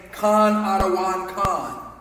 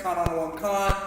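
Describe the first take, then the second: First: "Khan Adawan Khan" slow, each syllable clear; "Khan Adawan Khan" pronounced slowly and properly; careful slow pronunciation. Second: "Khan Adawan Khan" run together quickly; "Khan Adawan Khan" at a brisk everyday pace; said fast. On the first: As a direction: spell out "Khan Adawan Khan" deliberately. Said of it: "should be saying ... properly pronounce it". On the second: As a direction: rattle off "Khan Adawan Khan" as one word. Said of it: "used to saying it fast". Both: Shown as a demonstration.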